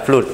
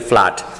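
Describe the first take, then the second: First: The vowel is pronounced as a long oo. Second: The vowel is pronounced without an oo sound. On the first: The speaker calls it wrong. "Semua yang O double dibaca U, tapi banjir bacanya bukan flood" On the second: The speaker calls it right. "tapi flood"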